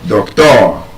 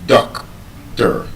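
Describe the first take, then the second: First: The stress is on the second syllable. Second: The stress is on the first syllable. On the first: The speaker calls it wrong. "you stress it on the second syllable" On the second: The speaker calls it right. "the stress is on the first syllable"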